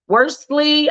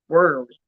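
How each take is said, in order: First: The name has an s sound before the l. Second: The name has no s sound before the l. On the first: The speaker calls it wrong. "I was saying worstly" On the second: The speaker calls it right. "It's actually Richard Worley"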